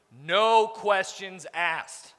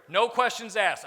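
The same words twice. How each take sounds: First: Drawn out very slowly; slow emphatic repeat. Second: Said in the usual way. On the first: Shown as a demonstration. Boss warning his staff, each word very slowly. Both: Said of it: "repeated for emphasis".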